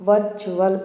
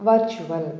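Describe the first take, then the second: Both takes have the same delivery.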